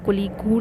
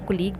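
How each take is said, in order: First: The word ends with an oo sound. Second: The word ends with a g sound. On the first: The speaker calls it wrong. "कोलीगू नहीं बोल रहे हैं" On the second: The speaker calls it right. "कोलीग बोल रहे हैं"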